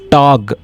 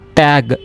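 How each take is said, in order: First: The word is said the German way. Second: The word is said as in English. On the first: The speaker calls it right. "it is Tag" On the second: The speaker calls it wrong. "it is not tag"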